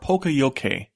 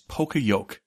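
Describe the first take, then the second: First: It is said in an Englishified way. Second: It has a long O and a silent final E. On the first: "Englishified to PokeYoke" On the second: "The most common pronunciation of the term is PokeYoke, with a long O and a silent E in yoke"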